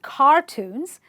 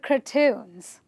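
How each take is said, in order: First: The stress is on the first syllable. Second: The stress is on the last syllable. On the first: The speaker calls it wrong. "They're not cartoons" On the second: The speaker calls it right. "you are going to stress on the suffix itself"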